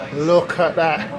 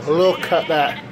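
Both takes have the same delivery.

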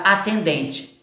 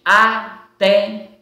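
First: Said in the usual way. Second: "atendente" slowly as a, ten, den, te; split into syllables. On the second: Shown as a demonstration. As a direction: pause after each syllable of "atendente". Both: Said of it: "quatro sílabas".

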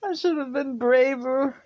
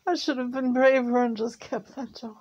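First: High, loud, aching with regret; pushing through tears; upset. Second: High and pained, still regretful; grieving, almost breaking; upset. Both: Real, not acted. Grieving over giving dog back.

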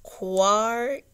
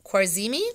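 First: Khwarizmi drawn out slowly as "Kar"; slow careful try at Khwarizmi; sounding out the name. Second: Khwarizmi said as "kwar-ZEE-mee" with a questioning rise; second guess at Khwarizmi, unsure; unsure pronunciation. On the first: Reader sounding out Khwarizmi for the children. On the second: Reader testing the name on the children. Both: Shown as a demonstration. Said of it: "his name is hard to say".

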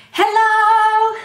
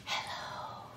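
First: High sung shout; loud hello. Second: Tiny whisper; whispered hello. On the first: Librarian shows the loudest hello to kids. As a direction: belt it out loud. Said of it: "as loud as you can". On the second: Librarian shows the quietest hello to kids. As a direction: breathe it out in a whisper. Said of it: "as quiet as you can". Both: Shown as a demonstration.

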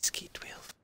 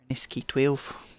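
First: Barely audible unvoiced whisper. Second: Said in the usual way. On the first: Real, not acted. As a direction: hush it so nobody hears. Whispering while listening for enemies.

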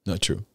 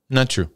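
First: Much softer, lower repeat of Not true; soft echo. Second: Said in the usual way. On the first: Real, not acted. Preacher quietly repeats his denial to the congregation: soft echo. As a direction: let it fall away quietly to yourself.

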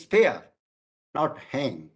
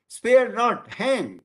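First: "spare", a clear pause, then "not hang"; pause after first word. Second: Slow, high "spare not", a break, then "hang"; pause after second word. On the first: Lecturer showing the comma after the first word, pause after "spare". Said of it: "comma is placed after the first". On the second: Lecturer showing the comma after the second word, pause after "not". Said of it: "comma is placed after the two". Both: Shown as a demonstration.

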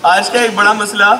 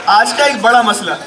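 Both takes have the same delivery.

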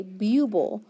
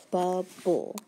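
First: "buble" as byoo-bul; mispronounced "buble", first syllable like byoo; long vowel. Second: "Bubble" as bub-bul with short U; syllable-split "Bubble", short first vowel. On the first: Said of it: "we would have to say buble". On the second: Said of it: "make it a short vowel". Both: Shown as a demonstration.

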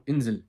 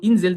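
First: Insel, kısa i, ı'ya yakın; INSEL'i i ile u arası kısa sesle söyle; doğru Almanca i. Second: Insel, net Türkçe i ile, yüksek ve vurgulu; INSEL'in i'sini incelt, tiz ve güçlü bas; yanlış ince i. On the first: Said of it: "I ile u'nun sanki arasında". (Almanca telaffuzlu Insel) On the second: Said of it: "Bu Insel değil". (yanlış örnek, keskin i'li Insel) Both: Shown as a demonstration.

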